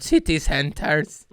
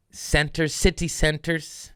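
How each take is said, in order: First: Slow, drawn-out smug "City centers."; mock-smug slow repeat. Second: Said in the usual way. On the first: Shown as a demonstration. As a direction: stretch out "City centers." like a know-it-all. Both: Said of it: "I am so smart".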